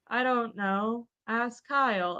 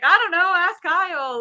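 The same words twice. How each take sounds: First: It is said flatly, with little energy. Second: It is said with more energy.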